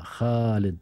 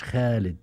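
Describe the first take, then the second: First: خالد with a full, heavy خ; full kha. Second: خالد with a thin, light خ; thin kha. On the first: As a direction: say خالد with a thick, rasped خ from the throat. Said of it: "الخاء مشبعة". (خاء مشبعة في خالد) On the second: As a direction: say خالد with a softened, thinned خ. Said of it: "مش خالد". (خاء مرققة في خالد) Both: Shown as a demonstration.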